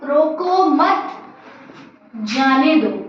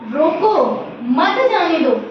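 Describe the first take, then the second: First: The pause comes after 'mat'. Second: The pause comes after 'roko'.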